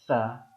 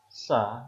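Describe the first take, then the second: First: The tongue is held between the teeth. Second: The tongue stays behind the teeth. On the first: "sama seperti za tadi, lidahnya digigit" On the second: "sa biasa"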